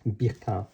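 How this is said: The name is pronounced the French way. "If you pronounce it in the French way"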